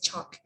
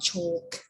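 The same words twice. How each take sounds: First: The L sound is silent. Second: The L sound is pronounced. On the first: The speaker calls it right. "It's a chalk" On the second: The speaker calls it wrong. "It's not chalk"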